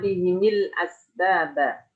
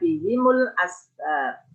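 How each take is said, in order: First: Both the h and the m take an i vowel. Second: The h takes i and the m takes u. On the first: This is one reciter's reading. "bikasril ha wal mim" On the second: This is the remaining reciters' reading. "Al-Baqun imam lainnya membaca"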